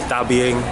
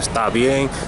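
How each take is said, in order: First: It is said in a Caribbean accent. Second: It is said in a neutral standard accent.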